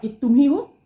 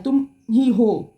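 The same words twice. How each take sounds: First: Said in the usual way. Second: Slow, tender confession; a partner's inner voice, slowly and tenderly; tender heart voice. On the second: Pretend. Partner's heart speaks to viewer.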